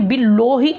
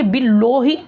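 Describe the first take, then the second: First: The vowel is rounded, with the mouth nearly closed. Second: The same.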